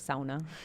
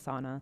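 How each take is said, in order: First: It uses the traditional Nordic-style pronunciation. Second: It uses the everyday American Midwestern pronunciation. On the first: "is technically how you should say it" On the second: "I'm very Midwest"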